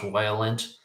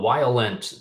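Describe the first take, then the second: First: It is said in his normal voice. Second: It is said in a put-on guy voice.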